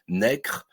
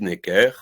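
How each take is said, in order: First: The name ends in a plain 'r' sound. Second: The name ends in an 'er' sound. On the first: This is how the name was said in the eighteenth century. "au dix-huitième siècle, eh bien, on prononçait Necre" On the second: This is how the name is said today. "on dit Necker"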